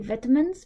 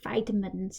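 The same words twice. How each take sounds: First: It is said with a British pronunciation. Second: It is said with an American pronunciation. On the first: "I say vitamins because I learned British English" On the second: "Or if you're American, they say vitamins"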